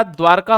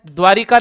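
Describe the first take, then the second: First: द्वारका with no i sound, as dvaar-kaa; द्वारका as the correct dvaarkaa; correct pronunciation. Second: द्वारिका with an extra i sound, said louder as the mistake; द्वारिका as the incorrect dvaarikaa; wrong pronunciation. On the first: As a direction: say द्वारका cleanly as dvaarkaa, the right form. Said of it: "होता है". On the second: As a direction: say द्वारिका as dvaa-ri-kaa to show the error. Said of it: "नहीं होता". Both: Shown as a demonstration.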